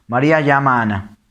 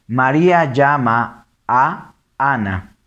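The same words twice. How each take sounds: First: Fast, one unbroken run; fuse "llama a Ana" quickly; quick merged reading; vowels run together. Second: Slow, words held apart; deliberate word-by-word reading; read separately. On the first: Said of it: "tres que se unen". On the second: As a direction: pause round the "a" before "Ana". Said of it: "Acá son tres que se unen". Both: Shown as a demonstration.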